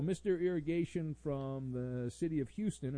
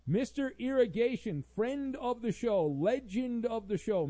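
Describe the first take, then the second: First: Said in the usual way. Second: High-pitched, punched-up announcer billing; hype introduction. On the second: Acted. Host introducing a regular listener's message, hyped announcing. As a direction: herald a legend with showy fanfare.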